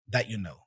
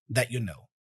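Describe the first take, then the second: Both takes have the same delivery.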